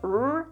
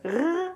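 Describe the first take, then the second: First: The R is a smooth English-style sound. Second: The R is a German-style sound. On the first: "R like in English" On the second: "R like in German"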